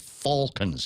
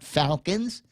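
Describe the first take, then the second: First: It is said with a British accent. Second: It is said with an American accent. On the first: The speaker calls it right. "You got to say it with the British accent" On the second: The speaker calls it wrong.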